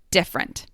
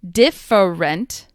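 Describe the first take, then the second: First: The unstressed middle syllable is dropped. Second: The unstressed middle syllable is pronounced.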